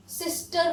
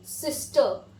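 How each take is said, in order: First: सिस्टर with a rolled r at the end; सिस्टर ending in a clear "r"; wrong way, r sounded. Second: सिस्टर said as "sistə" with no r; British सिस्टर, the r dropped; silent r. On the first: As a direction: say सिस्टर with the r pronounced. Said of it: "सिस्टर नहीं बोलेंगे". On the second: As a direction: end सिस्टर on a soft schwa. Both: Shown as a demonstration.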